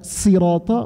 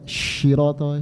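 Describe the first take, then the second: First: The word begins with an s sound. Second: The word begins with an sh sound. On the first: The recitation is accepted. The speaker calls it right. "Lebih baik dibaca sin" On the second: The recitation is invalid. The speaker calls it wrong. "sad dibaca syirata, shin, tidak sah"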